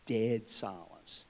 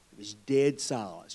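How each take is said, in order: First: Dead silence, very slowly, hushed; drawn-out dramatic echo; slow hushed repeat. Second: Said in the usual way. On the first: Shown as a demonstration.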